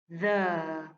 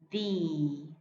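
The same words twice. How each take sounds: First: It is said in its before-consonant form. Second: It is said in its before-vowel form. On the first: "Before a consonant sound" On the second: "Before a vowel sound"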